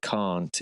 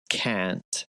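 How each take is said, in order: First: The vowel is a long broad British ah. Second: The vowel is a short flat American a. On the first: "I'd always say can't in a song" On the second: "I wouldn't ever sing can't"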